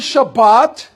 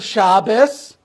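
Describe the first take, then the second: First: The word ends with a t sound. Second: The word ends with an s sound.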